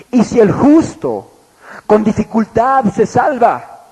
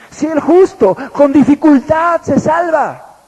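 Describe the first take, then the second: First: Slow, measured reading of the verse; scripture reading. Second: "Si el justo con dificultad se salva" slow, higher and louder, leaning on "justo"; emphatic repeat. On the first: Preacher reading the verse to his congregation, slow and measured. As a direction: read the verse out deliberately. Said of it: "marca la diferencia y dice". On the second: Preacher hammering the verse home to the congregation, slow and higher. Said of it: "preacher repeats the verse for emphasis". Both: Shown as a demonstration.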